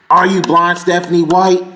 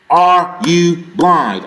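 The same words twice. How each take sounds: First: Said in the usual way. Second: Are you blind, stretched out slowly; slow emphatic repeat. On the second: Real, not acted. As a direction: drag each word of are you blind.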